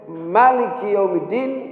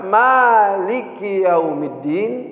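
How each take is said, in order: First: The first vowel of maliki is short. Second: The first vowel of maliki is long. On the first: God is the king of the Day of Judgment. "Kalau dibacanya pendek" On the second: God is the owner of the Day of Judgment. "Kalau pakai alif"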